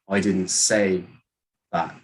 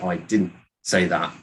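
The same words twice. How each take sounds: First: The word say carries the main stress. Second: The word didn't carries the main stress. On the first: It was implied but not said. "maybe you did something else to mean it. You just didn't say it" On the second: It simply was not said. "you're just saying that I didn't say it"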